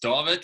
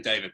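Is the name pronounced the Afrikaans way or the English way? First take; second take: Afrikaans; English. First: The name has an Afrikaans pronunciation. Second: The name has an English pronunciation. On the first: This is the original family form of the name. "it's David, which is Afrikaans" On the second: This form is easier for English speakers. "when I speak to English people, I just say David because it's a lot easier"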